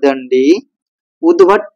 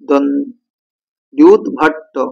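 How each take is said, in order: First: The two words are said as separate words. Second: The two words run together into one word. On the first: "আমি আলাদা করে বললাম" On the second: "একসঙ্গে উদ্ভট্টটা যদি আমরা করে দিই একসঙ্গে"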